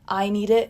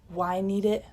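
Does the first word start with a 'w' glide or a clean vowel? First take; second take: clean vowel; w glide. First: The first word starts cleanly on the vowel. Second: The first word starts with a 'w' glide. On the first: "it's just sharp and firm, and he doesn't have this "wuh" sound on it" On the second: "not "why need it," like "wah.""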